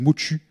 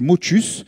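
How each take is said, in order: First: The final s is left silent. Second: The final s is clearly pronounced. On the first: The speaker calls it wrong. "ils sont bizarres, ils disent motu" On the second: The speaker calls it right. "pour la prononciation, on me l'a demandé, c'est motus"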